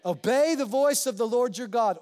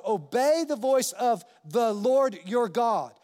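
First: Said in the usual way. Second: Obey the voice of the Lord your God, slowed with every word weighted; slow emphasis. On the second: Shown as a demonstration. Preacher repeats the verse so it sinks in, slow and deliberate. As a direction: let each word of the verse land slowly. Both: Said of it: "what's that word?".

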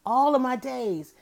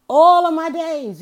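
First: Said in the usual way. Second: Louder and higher, stretched slowly; emphatic loud repeat. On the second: Real, not acted. Host to listeners, stressing her lifelong devotion, loud and slow. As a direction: belt out "All of my days" like a vow.

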